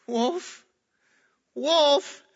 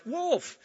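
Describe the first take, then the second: First: Wolf! yelled high and loud, rising; frantic boy's cry for help; desperate cry. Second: Sudden high yelp of Wolf!; boy's mock alarm call; crying wolf. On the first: Retold or imitated. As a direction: scream for help that nobody believes. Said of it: "the little boy says". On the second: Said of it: "so he cries".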